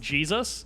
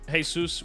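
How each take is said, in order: First: The name is pronounced the English way. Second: The name is pronounced the Spanish way. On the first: It is the familiar religious name. "was actually just Jesus" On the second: It is a common Hispanic given name. "like a fairly commonly referred to uh, like Hispanic name"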